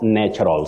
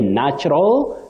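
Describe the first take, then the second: First: The first syllable has an 'e'-like vowel. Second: The first syllable has a short 'a' vowel. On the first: The speaker calls it wrong. "not natural" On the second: The speaker calls it right. "we also say natural"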